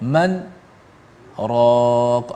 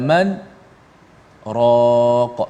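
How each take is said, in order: First: There is a brief pause between the two words. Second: There is a brief pause between the two words.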